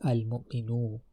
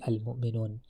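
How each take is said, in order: First: The word ends with a vowel. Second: The word ends with an n sound. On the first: The speaker calls it right. "The correct way, way of saying is al mu'minu" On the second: The speaker calls it wrong. "So this is wrong. You can't you can't say al mu'minun"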